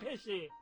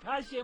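First: It is said in an Isfahani accent. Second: It is said in the listener's non-Isfahani local accent. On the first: This is how the speaker's own people say it. "ما میگویم پشه" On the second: This is how the listener's people say it. "شما بگوید پشه"

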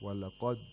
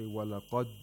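No difference in how they are said.

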